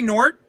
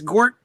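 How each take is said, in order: First: The G is dropped; it starts with N. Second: The N is dropped; it starts with G. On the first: "the G is silent" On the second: "the N is silent"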